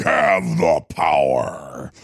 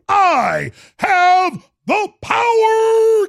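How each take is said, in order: First: Deep voice. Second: Shrieking. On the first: Catchphrase, said low. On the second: Catchphrase, shrieked high. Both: Retold or imitated.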